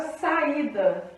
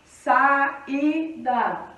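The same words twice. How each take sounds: First: Said in the usual way. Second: SAÍDA split slowly into SA, Í, DA; three separate beats on saída, SA-Í-DA; saída broken apart with pauses between syllables. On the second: Shown as a demonstration. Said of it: "porque é vogal mais vogal".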